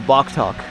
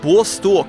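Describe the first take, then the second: First: The middle consonant is a K sound. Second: The middle consonant is an S sound. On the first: It is read as English letters. "if you read that in English, it just says Boktok" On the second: It is read as Cyrillic letters. "Excuse my pronunciation"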